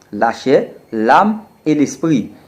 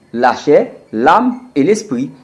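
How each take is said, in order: No difference in how they are said.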